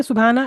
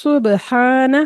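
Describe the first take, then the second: First: Said in the usual way. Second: سبحانہ recited with a clear hissing س; proper tajweed. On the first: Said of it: "نہیں". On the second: Shown as a demonstration. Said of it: "ہم اس کو بولیں گے". (سبحانہ تجوید کے ساتھ)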